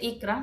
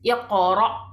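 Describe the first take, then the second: First: The middle consonant is a light k sound. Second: The middle consonant is a heavy, deep q sound. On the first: The speaker calls it wrong. "no dice Ikra" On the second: The speaker calls it right. "Es una palabra fuerte, pesada"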